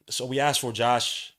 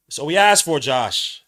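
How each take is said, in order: First: Said in the usual way. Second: Repeated much louder, punching asked. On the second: Shown as a demonstration. Streamer repeating the coach's point, much louder. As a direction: say it again, hard and loud.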